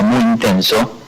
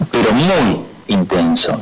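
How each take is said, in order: First: Said in the usual way. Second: Muy stretched and slowed for emphasis; slow emphatic muy; stress on muy. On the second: Shown as a demonstration. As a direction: lean hard on muy, slowly.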